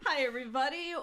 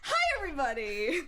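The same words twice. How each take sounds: First: The greeting is calm and plain. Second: The greeting is loud and over-the-top.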